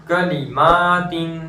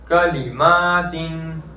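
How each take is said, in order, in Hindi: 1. दूसरा अक्षर 'li' छोटा रखा जाता है। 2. दूसरा अक्षर 'li' छोटा रखा जाता है।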